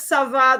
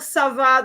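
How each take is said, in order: First: It is said brightly and with enthusiasm. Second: It is said brightly and with enthusiasm.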